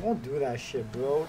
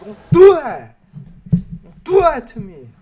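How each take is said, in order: First: Said in the usual way. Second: High, very loud begging shout; pleading yell. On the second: Real, not acted. Gamer begging the pack not to be bad, pleading yell. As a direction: yell the plea at the screen.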